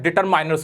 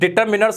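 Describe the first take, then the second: First: The middle syllable sounds like 'mine'. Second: The middle syllable sounds like 'min'. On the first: The speaker calls it wrong. "डिटरमाइनर्स नहीं होता" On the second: The speaker calls it right. "ये डिटरमिनर्स होता है"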